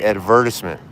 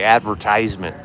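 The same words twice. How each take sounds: First: The word is said in a posh-sounding way. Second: The word is said in a plain, unrefined way. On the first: The speaker is sophisticated. "A sophisticate would say advertisement" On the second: The speaker is unsophisticated.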